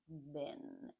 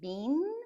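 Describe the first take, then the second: First: The vowel is the short 'eh'-like sound. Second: The vowel is not the short 'eh'-like sound. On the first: This is the most common way to say it. "the most common pronunciation is been" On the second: This is a possible but less common way to say it. "You might say been, you can"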